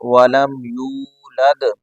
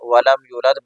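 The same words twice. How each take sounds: First: The vowel after the y is long. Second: The vowel after the y is short. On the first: The speaker calls it right. "इसको खींच के पढ़ना है" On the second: The speaker calls it wrong. "या मद्दा को खींच के नहीं पढ़ते"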